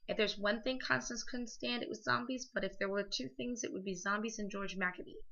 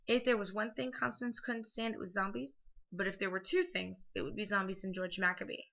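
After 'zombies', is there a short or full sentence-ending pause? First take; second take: short; full. First: It runs on with a short comma pause. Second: It breaks into two sentences after zombies.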